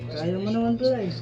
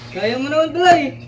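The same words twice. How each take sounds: First: It is said in a disappointed tone. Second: It is said in a happy tone.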